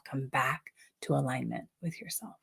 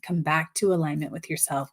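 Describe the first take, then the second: First: Softer, lower, fading affirmation; soft and quiet. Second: Said in the usual way. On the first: Shown as a demonstration. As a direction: let it fade into a hush. Repeated affirmation fading softly.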